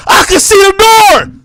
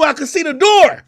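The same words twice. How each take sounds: First: Slower, louder and higher, hammering it home; loud repeat. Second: Said in the usual way. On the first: Real, not acted. Mocking her small apartment, a loud slow repeat. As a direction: shout it again to drive it in.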